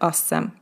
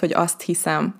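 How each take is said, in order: First: The phrase is squeezed into one short contracted word. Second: The phrase is said as two full separate words. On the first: This is the casual spoken form. "a beszélt nyelvben sokszor azt mondjuk ... Ez egy ilyen összevont forma" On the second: This is the standard full form.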